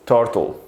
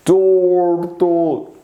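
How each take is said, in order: First: Said in the usual way. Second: TURTLE stretched very long, higher; slow motion. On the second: Shown as a demonstration. Teacher showing pupils slow motion, slow motion. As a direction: drag out both syllables of TURTLE. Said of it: "Slow motion, you see?".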